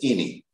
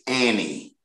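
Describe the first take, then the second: First: The word does not sound like the name Annie. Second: The word sounds like the name Annie. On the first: The speaker calls it wrong. "I did not pronounce the word any correct. And I pronounced it as any" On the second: The speaker calls it right. "the correct pronunciation for A-N-Y is Annie"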